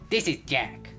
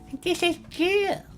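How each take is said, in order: First: It is said in Jack's lower voice. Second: It is said in Jillian's higher voice.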